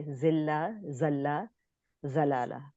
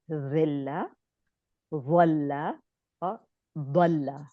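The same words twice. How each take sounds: First: Every first letter of "ذلہ، ذلہ، ضلالہ" flattened to one z; Urdu z pronunciation. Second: Careful Arabic articulation of "ذلہ، ولہ، ضلہ", each first letter distinct. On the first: Teacher showing her old Urdu reading, plain z in "ذلہ، ذلہ، ضلالہ". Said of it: "پڑھتی تھی زے سے". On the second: Teacher showing students three different words, distinct Arabic letters in "ذلہ، ولہ، ضلہ". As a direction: say "ذلہ، ولہ، ضلہ" with three separate heavy Arabic consonants, none a plain z. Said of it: "یہ تین words ہیں". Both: Shown as a demonstration.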